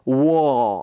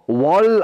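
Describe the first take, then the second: First: The vowel is drawn out with no R. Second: The word ends with an L sound. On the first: The speaker calls it right. "그냥 조금 끌어주세요" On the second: The speaker calls it wrong. "이렇게 발음해버리면 이건 L 발음이고요"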